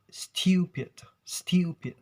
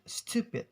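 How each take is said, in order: First: "stupid" as styoo-pid, with a long drawn glide; British pronunciation. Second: "stupid" as stoo-pid, plain oo; American pronunciation. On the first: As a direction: stretch "stupid" with an ew sound, British style. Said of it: "But in British accents". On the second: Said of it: "American accents". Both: Shown as a demonstration.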